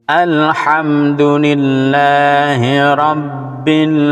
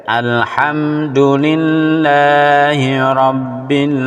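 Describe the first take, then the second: No difference in how they are said.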